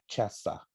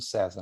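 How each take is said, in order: First: It is said with a Latin-style pronunciation. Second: It is said like the ordinary Portuguese name. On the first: It is a title meaning emperor. "mas se pronuncia César" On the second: It is a man's personal name. "Se escreve igualzinho como César"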